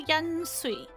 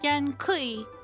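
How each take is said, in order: First: The second word begins with a soft sound. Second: The second word begins with a hard k sound. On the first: The speaker calls it wrong. "I think I'm pronouncing that wrong" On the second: The speaker calls it right. "I actually think that's a hard k sound"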